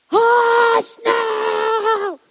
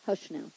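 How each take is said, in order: First: Very high, drawn-out holler; hammed-up crazy scream, stretching each word; crazed mock yell. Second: Soft, low hush; calmly quiet it without raising the voice; unraised voice. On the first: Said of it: "waking up and being, like, crazy?". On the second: Acted. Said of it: "I don't think he even raises his voice".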